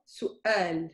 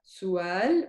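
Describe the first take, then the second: First: Su'al broken by a glottal stop; slowly, su, a catch, then al in su'al; with the hamza. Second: Su'al glided through as "suwal"; slow Su'al with a W in place of the catch; without the hamza. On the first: Teacher contrasting two versions, glottal break after u. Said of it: "It's after the u". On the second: Teacher contrasting two versions, smooth glide without hamza. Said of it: "If there was no hamza". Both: Shown as a demonstration.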